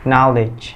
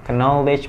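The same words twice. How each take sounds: First: The k at the start is silent. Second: The k at the start is pronounced. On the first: The speaker calls it right. "tapi knowledge. K di sini nggak dibaca" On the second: The speaker calls it wrong. "Knowledge bukan"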